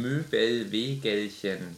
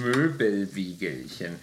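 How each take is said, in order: First: Each syllable spelled out slowly; slow careful. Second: Cheeks puffed full of air; mouth full. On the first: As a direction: carefully sound out Möbelwegelchen syllable by syllable. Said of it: "Du musst Möbelwegelchen sagen". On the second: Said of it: "mein Mund war voll mit Luft". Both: Shown as a demonstration.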